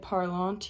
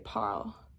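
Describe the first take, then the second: First: The final nasal ending is pronounced aloud. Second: The word ends after the L sound. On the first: The speaker calls it wrong. "you don't say parlant" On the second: The speaker calls it right. "you just say parle"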